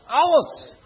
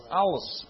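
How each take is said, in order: First: Alles shouted out high and loud. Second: Said in the usual way. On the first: Shown as a demonstration. Preacher urging the congregation to repeat it, shouting Alles. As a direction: call out Alles to lift the room. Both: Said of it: "zegt iemand alles?".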